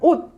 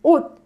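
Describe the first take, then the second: First: The word ends with a stopped, unreleased t. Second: The same.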